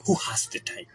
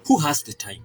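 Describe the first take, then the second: First: Whispered aside, much softer. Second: Said in the usual way. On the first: Real, not acted. Repeating the question to viewers as a hushed whisper. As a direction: breathe it out like a private afterthought.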